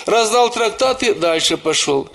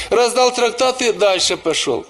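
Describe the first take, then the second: No difference in how they are said.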